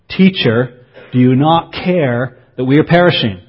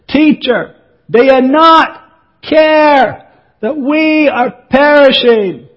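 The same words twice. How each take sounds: First: It is spoken at a calm, normal volume. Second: It is yelled loudly over imagined noise. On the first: It could not be heard over the storm. The speaker calls it wrong. "if they'd said it like that, the teacher would never have heard them" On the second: It is loud enough to be heard over the storm. The speaker calls it right. "they would have had to yell at him to be heard"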